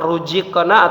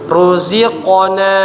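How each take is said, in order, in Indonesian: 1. Konsonan tengahnya bunyi j. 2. Konsonan tengahnya bunyi z. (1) "huruf za jangan berubah menjadi huruf jim" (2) "tapi ruzi ya"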